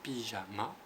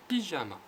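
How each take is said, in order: First: Said in the usual way. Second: Pyjama said higher and louder, syllables split; stressed syllables. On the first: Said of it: "ça commence par pi". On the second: Shown as a demonstration. Teacher recapping the word, stressing syllables. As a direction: sound out Pyjama, leaning on ma. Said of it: "M, A".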